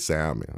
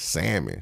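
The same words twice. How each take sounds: First: The L in the word is pronounced. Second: The L in the word is silent. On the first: The speaker calls it wrong. "I can say salmon" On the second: The speaker calls it right. "you don't pronounce the L in salmon"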